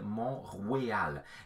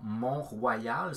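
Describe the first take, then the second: First: The vowel in 'Royal' sounds like 'we'. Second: The vowel in 'Royal' sounds like 'wa'. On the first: This is the old French pronunciation. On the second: This is the modern pronunciation.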